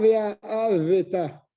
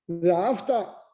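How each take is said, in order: First: A short vowel is pronounced between v and t. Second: No vowel is pronounced between v and t. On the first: The speaker calls it wrong. "Tu ne dis pas" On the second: The speaker calls it right. "C'est un chevanach"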